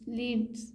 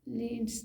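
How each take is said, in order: Both takes have the same delivery.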